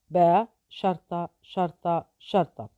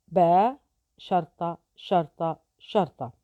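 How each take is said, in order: Both takes have the same delivery.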